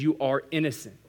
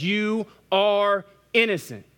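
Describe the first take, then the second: First: Said in the usual way. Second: High, loud and slow, each word landed; slow, high, loud proclamation; proclaimed verdict. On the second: Acted.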